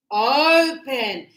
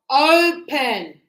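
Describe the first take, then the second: First: Open, loud, hard on the first O; stress on O. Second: Open, louder, leaning hard on the O; stress on O. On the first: Teacher repeating open so the class hears the strong O. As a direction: hit the O in open again. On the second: Teacher showing the class the strong O in open. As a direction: punch the O of open. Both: Shown as a demonstration. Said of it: "It's very strong on the O".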